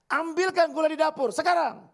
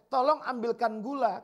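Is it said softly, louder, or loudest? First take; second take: loudest; softly. First: It is said loudest of all. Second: It is said at normal volume.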